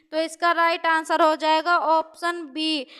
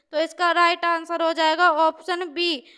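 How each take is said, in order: No difference in how they are said.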